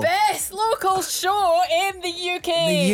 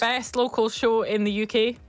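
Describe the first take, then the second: First: It is shouted loudly and cheerfully. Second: It is said calmly at normal volume.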